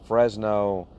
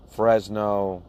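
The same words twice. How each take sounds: The two takes are said the same way.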